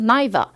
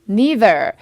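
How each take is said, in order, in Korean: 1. 이 단어는 영국 억양으로 발음됐어요. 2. 이 단어는 미국 억양으로 발음됐어요.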